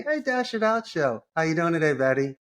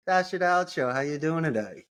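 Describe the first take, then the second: First: Much higher, bright greeting; upbeat cold-call greeting. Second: Said in the usual way. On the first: Shown as a demonstration. Caller greeting the assistant Betty with high energy. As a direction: pitch it up with energy. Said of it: "And if you happen to have your assistant". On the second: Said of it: "the first thing I would say is".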